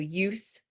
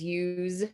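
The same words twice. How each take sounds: First: The final sound is a voiceless s. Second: The final sound is a voiced z. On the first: It is used as a noun. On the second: It is used as a verb.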